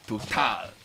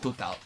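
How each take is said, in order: First: It is said with a French pronunciation. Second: It is said with an English pronunciation. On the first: The speaker calls it right. "It's the French version of Total" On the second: The speaker calls it wrong. "It's not Total"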